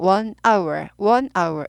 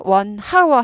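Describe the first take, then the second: First: "one hour" linked straight into the vowel of "hour"; silent H. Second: "one hour" with an audible h on "hour"; H sounded. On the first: Teacher giving the correct form after the mistake, silent H. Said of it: "H가 묵음이라". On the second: Teacher showing the mistake to avoid, H sounded. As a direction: say "one hour" wrongly, like "one how-er". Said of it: "하지 않고". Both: Shown as a demonstration.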